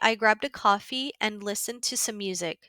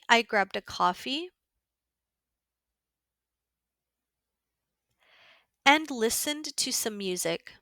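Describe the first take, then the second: First: It is read at a natural, quicker pace. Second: It is read at a slower pace.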